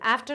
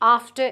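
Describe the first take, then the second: First: It is said in an American accent. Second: It is said in a British accent. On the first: "is American pronunciation" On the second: "is British pronunciation"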